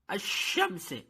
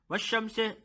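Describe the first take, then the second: First: The sh sound is spread with flowing breath. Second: The sh sound is short without spreading breath. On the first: The speaker calls it right. "This is the right pronunciation" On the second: The speaker calls it wrong. "this is not a right pronunciation"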